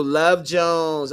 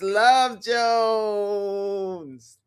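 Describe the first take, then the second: First: Said in the usual way. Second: Love Jones stretched out slowly, swooning; gushing. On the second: Real, not acted. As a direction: savour "Love Jones" like a dear memory. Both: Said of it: "Oh, y'all, yes".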